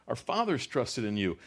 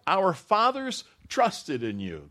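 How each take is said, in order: First: Said in the usual way. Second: Fathers stretched high and slow, ringing; stress on fathers. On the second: Shown as a demonstration. Preacher savoring the line for the congregation, fathers drawn out. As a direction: lean long on fathers, high.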